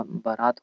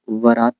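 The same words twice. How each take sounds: First: "बारात" with a clear b at the start; correct pronunciation. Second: "बारात" in the rejected form, starting with a v-like sound; wrong pronunciation. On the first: Teacher giving the accepted form, "बारात" starting with b. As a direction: start "बारात" on a firm b, not v. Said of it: "बारात होता है". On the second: Teacher showing the rejected form, "बारात" starting v-like. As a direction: soften the first sound of "बारात" towards v. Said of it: "बारात नहीं होता". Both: Shown as a demonstration.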